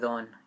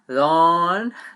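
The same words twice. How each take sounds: First: The word is said softly, without extra force. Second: The word is said loudly, with extra force. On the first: The speaker calls it wrong. "you don't say don" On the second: The speaker calls it right. "you have to speak louder because it has an accent"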